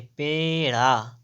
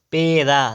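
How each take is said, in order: First: "पेड़ा" drawn out slowly with retroflex ṛ; correct flap. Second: "पेड़ा" with plain dental r/d; wrong middle sound. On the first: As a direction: stretch "पेड़ा" onto a curled ṛ. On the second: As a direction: say "पेड़ा" without the curled flap. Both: Shown as a demonstration. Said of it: "पेड़ा नहीं".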